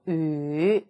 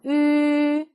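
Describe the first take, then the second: First: The pitch dips low. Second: The pitch stays high and level. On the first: "삼성" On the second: "일성"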